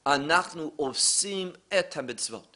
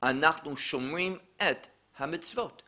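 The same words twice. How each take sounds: First: "Anachnu osim et hamitzvot" as the phrase not to use, spoken softly; soft example of what not to say; wrong Hebrew. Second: Soft, careful Hebrew demo; right Hebrew. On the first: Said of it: "we don't say in Hebrew". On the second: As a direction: correct Hebrew: "Anachnu shomrim et hamitzvot", spoken softly. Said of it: "another way to say that". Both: Shown as a demonstration.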